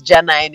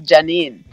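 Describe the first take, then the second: First: Janine ending to rhyme with nine; uncle's pronunciation. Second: Janine ending to rhyme with seen; standard pronunciation. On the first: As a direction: say Janine as "ja-NINE", long "eye" vowel. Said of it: "pronounce my name as Janine". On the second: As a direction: say Janine as "ja-NEEN", long "ee" vowel. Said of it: "instead of Janine". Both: Shown as a demonstration.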